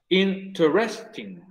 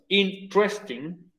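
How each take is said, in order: First: The word is said with four syllables. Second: The word is said with three syllables. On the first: "con cuatro sílabas" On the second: "con tres sílabas"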